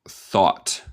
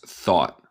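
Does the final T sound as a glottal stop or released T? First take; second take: released T; glottal stop. First: The final T is clearly released. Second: The final T becomes a glottal stop. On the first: "En inglés neutral" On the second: "En el acento estadounidense hacemos lo que llama un glottal stop por el T"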